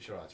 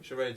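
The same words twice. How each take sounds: First: The word is said in a non-American way. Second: The word is said in an American way. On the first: "You pronounce it charades, right?" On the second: "Charades is American"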